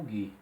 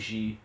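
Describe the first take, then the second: First: The consonant is a hard 'g' sound. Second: The consonant is a soft 'zh' sound. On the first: The speaker calls it right. "vai dizer Gi como Gui" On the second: The speaker calls it wrong. "não vai dizer"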